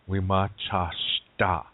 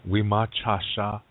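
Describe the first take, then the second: First: The word ends with a -shta sound. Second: The word ends with a plain -sha sound. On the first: A Dakota speaker says it. "he's going to say Wimachashta" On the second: A Lakota speaker says it. "If I say um, Wimachasha, I am a man"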